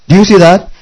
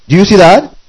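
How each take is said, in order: Both takes have the same delivery.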